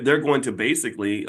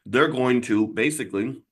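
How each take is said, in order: First: Said in the usual way. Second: Talking round something in mouth; words muffled by food; mouth full. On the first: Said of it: "sorry, I have something in my mouth". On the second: Real, not acted. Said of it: "I have something in my mouth".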